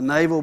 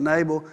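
First: "naval" said like the word for the navy, NAY-vul; the old mispronunciation "naval" with a long A and a V; preacher showing how he used to say "naval"; wrong pronunciation. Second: "Nabal" said nuh-BAHL, stress on the second syllable; the proper "Nabal", B sound and open second vowel; preacher giving the right way to say "Nabal"; correct pronunciation. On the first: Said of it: "It's not Nabal. I've always said Nabal. Like naval". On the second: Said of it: "It's definitely Nabal". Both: Shown as a demonstration.

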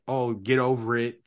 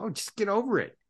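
First: Said in the usual way. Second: Dismissive brush-off, pitched higher; mock dismissive. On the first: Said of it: "I don't tell people that". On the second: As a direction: toss it off lightly, like it's nothing. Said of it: "tell a client ... and go".

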